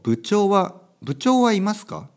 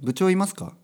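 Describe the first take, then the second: First: It is said slowly, keeping the particle. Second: It is said quickly, dropping the particle. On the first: "ゆっくり言うと" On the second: "早く言うとね"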